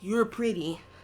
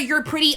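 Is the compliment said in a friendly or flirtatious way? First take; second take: flirtatious; friendly. First: It is said in a suggestive, flirting way. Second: It is said in a plain, friendly way.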